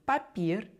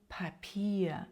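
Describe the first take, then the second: First: The p is said without a puff of air. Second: The p is said with a puff of air. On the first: "українською папір" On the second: "німецькою папір. Іде придихання"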